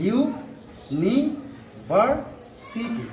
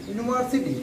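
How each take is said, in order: First: university very slowly in separate beats; slow teacher's syllable breakdown. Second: Said in the usual way. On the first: Shown as a demonstration. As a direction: stretch every syllable with gaps between. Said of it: "চারটি syllable আছে". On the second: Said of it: "syllable হিসাবে লিখি".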